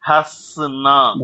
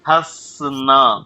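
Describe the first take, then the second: The two takes are said the same way.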